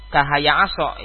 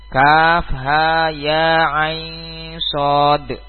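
First: The letters run together as one short word. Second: Each letter is named separately by its full name. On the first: The speaker calls it wrong. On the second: The speaker calls it right. "Ini cara bacanya"

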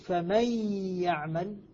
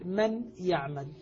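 First: The n merges into a doubled y sound. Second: The n is pronounced clearly before the y. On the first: "فإذا أدغمت النون في الياء" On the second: "أنطق بالنون فيرتفع اللسان إلى اللثة فأقول من، ثم أنطق بالياء"

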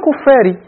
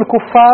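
First: The word ends with a short 'i' vowel. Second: The word ends with a short 'a' vowel. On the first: It is governed by the preposition. "وعلى قراءة الجر معطوف على الذين الثانية المجرورة بمن" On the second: It is the object of the verb. "على قراءة نصب الكفار معطوف على الذين"

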